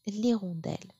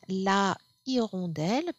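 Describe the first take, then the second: First: The article's vowel is dropped before the noun. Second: The article's vowel is pronounced before the noun. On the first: The speaker calls it right. "we are also going to drop that A in front of H" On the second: The speaker calls it wrong. "it should have been la hirondelle"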